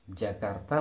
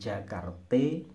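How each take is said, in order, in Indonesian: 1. Vokal akhirnya adalah bunyi a. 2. Vokal akhirnya adalah bunyi e.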